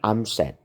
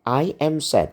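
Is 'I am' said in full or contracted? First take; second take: contracted; full. First: The words 'I am' are shortened together. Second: The words 'I am' are said in full. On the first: "orang Inggris ngomongnya cepat" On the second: "Itu tulisannya"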